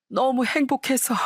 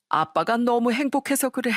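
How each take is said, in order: First: Higher and slower, swept up in tearful joy; overcome with joy. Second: A touch of tears in a father's happy voice; tearful happiness. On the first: Father repeating to his daughter that he is happy, higher, slower, tearful. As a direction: let the words break open, slowly. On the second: Father telling his daughter why he cries, mildly tearful. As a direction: say it choked up with joy, understated. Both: Acted.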